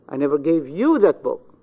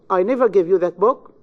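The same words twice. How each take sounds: First: The stress falls on the word you. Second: The stress falls on the word I. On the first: "in the pronoun you" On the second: "In the first sentence, you have the stress on the pronoun I"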